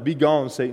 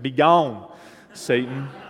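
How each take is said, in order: First: It is said in a neutral accent. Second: It is said in a southern accent.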